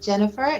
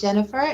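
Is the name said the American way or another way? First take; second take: American; American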